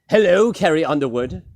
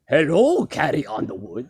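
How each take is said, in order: First: It is said in a non-Dracula voice. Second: It is said in a Dracula voice.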